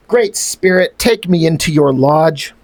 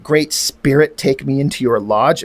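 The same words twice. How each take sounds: First: A hammed-up solemn plea to the Great Spirit; solemn dramatic reading. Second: Parroting the line back with scorn; mocking repeat. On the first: Reading the comic's dying-warrior line as a grave plea. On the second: Mocking the comic's cliche line to the viewers. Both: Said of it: "it reads like cliche stuff".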